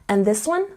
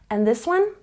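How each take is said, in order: No difference in how they are said.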